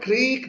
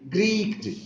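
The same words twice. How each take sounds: First: It is said with a standard English accent. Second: It is said with a German accent. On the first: "The word creaked" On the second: "he pronounced as creaked"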